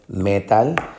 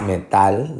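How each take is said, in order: First: The stress is on the first syllable. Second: The stress is on the last syllable. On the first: The speaker calls it wrong. "no es metal. Metal suena como la música" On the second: The speaker calls it right. "La sílaba fuerte, o la que lleva la fuerte de pronunciación, es metal"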